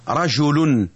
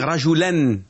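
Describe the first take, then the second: First: The word ends with the sound 'un'. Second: The word ends with the sound 'an'. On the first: The word is the subject of the sentence. "On dit rajoulun" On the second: The word is the direct object of the verb. "quand il est complément ... on va dire rajoulen"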